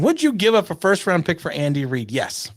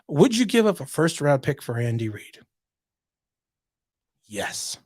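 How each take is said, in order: First: The answer follows the question with no pause. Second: A long dramatic pause comes before the answer. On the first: "was I supposed to pause before I answered?" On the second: "a caesur, which is a dramatic pause"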